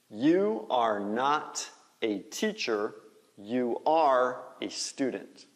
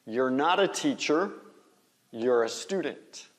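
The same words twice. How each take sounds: First: "You are" as two slow, separate words; full form. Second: "You're" as one syllable, like "yor"; contracted form. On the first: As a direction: spell out "You are" word by word, slowly. (forma completa, "You are" em duas palavras) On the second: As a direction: blend "You're" and flow on into the phrase. (forma contraída, "You're" numa sílaba só) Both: Shown as a demonstration. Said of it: "Faz a contração".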